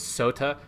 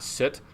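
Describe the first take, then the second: First: The word ends with a pronounced final vowel. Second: The word ends without any final vowel. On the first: The speaker calls it right. "all the words in ... Middle English end with an E, which is all pronounced" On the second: The speaker calls it wrong. "not soot"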